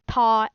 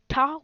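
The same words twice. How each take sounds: First: The tongue touches the upper lip. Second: The tongue touches the ridge behind the teeth. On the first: "it touches your um your top lip like in ta" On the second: "where your tongue touches your alveolar ridge"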